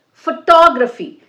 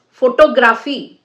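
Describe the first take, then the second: First: Photography with TOG punched high and loud, "fuh-TOG-ruh-fee"; correct syllable stress. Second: Photography said as "fo-to-GRA-fee"; photography built on photograph, with a full "GRA" instead of stressed TOG; wrong stress. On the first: Teacher correcting word stress, "photography" as "fuh-TOG-ruh-fee". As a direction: hit the second syllable of photography hard. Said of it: "which syllable you have to stress". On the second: Teacher showing the wrong stress, "photography" as "fo-to-GRA-fee". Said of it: "you can't say it is". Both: Shown as a demonstration.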